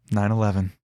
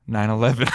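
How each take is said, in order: First: Mild cashier impression. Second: Sigh, then say the total quickly and wearily; a heavy sigh before the number; sighing weary quote. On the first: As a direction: quote the cashier's total lightly. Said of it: "That's what happened". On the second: Retold or imitated. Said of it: "She's living the never forget".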